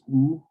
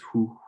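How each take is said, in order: First: It starts directly with the vowel, no H. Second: It starts with a breathy H sound. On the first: This is the French way of making the sound. "they don't pronounce the H" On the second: This is the English way of making the sound. "for us it's hoo"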